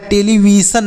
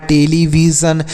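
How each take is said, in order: First: "टेलीविजन" with s, te-li-vi-san; wrong reading. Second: "टेलीविजन" with a voiced z, te-li-vi-zan; correct reading. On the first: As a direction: end "टेलीविजन" in -san instead of -zan. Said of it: "टेलीविजन नहीं पढ़ना है". ("टेलीविजन" के अंत में ज की जगह सन) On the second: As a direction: end "टेलीविजन" in -zan, not -san. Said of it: "तो इसे आप पढ़ना है". ("टेलीविजन" के अंत में ज़न की ध्वनि) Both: Shown as a demonstration.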